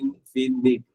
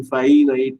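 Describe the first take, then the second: First: The middle syllable sounds like 'fin'. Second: The middle syllable sounds like 'fine'. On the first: The speaker calls it right. "இன்ஃபினிட் அப்படிங்கிறது ஞாபகம் வச்சுங்க" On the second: The speaker calls it wrong. "இன்ஃபைனைட் இல்லாம"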